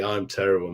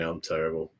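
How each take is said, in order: First: Said in the usual way. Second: Softer, lower, muttered to himself; a quiet self-mocking echo; quiet rueful repeat. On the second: Real, not acted. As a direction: drop it down like a sheepish admission. Self-deprecating repeat to chat.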